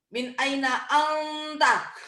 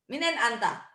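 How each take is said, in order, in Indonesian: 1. Setiap kata diucapkan penuh dan terpisah. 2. Kata-katanya disambung cepat dan disingkat.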